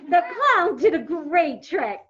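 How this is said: The voice sounds amused and lively. The speaker calls it right. "If you're saying something funny"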